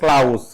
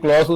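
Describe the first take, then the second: First: One syllable with an ow vowel. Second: One syllable with an aw vowel. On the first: The speaker calls it wrong. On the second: The speaker calls it right.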